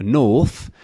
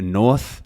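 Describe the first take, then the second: First: NORTH said as "nawth"; R dropped. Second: Said in the usual way. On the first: Shown as a demonstration. Teacher contrasting north for learners, dropped R. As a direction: round the vowel of NORTH, no R. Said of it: "lack of an R". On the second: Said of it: "rather than a".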